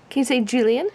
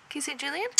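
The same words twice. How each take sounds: First: Said in the usual way. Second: Much softer, rising question; hushed prompt. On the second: Real, not acted. Parent prompting toddler to say a name, hushed. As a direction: coax softly, under your voice.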